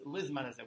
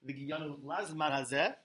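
First: The first word is said with an 'i' vowel. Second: The first word is said with an 'a' vowel. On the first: The speaker calls it right. "but it's" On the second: The speaker calls it wrong. "It's not"

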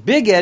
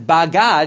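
First: The first vowel is an 'i' sound. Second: The first vowel is an 'a' sound. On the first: This is the word as it is read aloud. "you pronounce it as Bigad" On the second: This is the word as it is written. "it's written as Bagad"

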